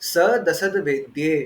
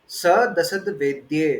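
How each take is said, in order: The two takes are said the same way.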